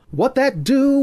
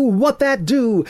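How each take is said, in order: First: High, loud crooned line, quick; sung. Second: High, loud, drawn-out sung repeat; slow sung. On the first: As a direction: sing it out in jazz style. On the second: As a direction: stretch the line like a crooner. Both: A narrator's reading. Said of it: "Ethan responded by singing".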